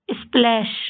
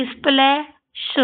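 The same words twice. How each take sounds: First: Said in the usual way. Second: स्प्लैश slowly as isple, pause, shu; sounded out. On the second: Shown as a demonstration. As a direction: break स्प्लैश before a separate sh sound. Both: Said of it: "इस तरीके से आपको ये सारे शब्द पढ़ने हैं".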